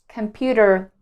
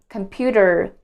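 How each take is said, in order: The two takes are said the same way.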